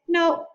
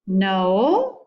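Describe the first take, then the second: First: The pitch falls on the word. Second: The pitch rises on the word. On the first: The answer is final and nothing more is asked. "This is a neutral, a neutral no. So fall gives the impression of finality" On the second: The answer questions the reason behind the request. "But imagine the opposite"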